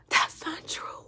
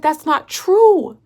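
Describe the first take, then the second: First: Whispered protest. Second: Slow, raised protest with TRUE stretched out; drawn-out protest. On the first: Woman denies fiancé's claim, whispered. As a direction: voice drops away to a whisper. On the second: Woman denies fiancé's claim, drawn-out protest. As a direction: object firmly, dragging out the word true. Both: Retold or imitated.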